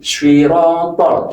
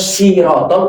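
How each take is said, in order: First: The first s is heavy with a w-like colour. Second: The first s is a plain, light s. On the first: The speaker calls it right. "seakan-akan ada huruf w-nya" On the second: The speaker calls it wrong. "berarti berubah huruf sin"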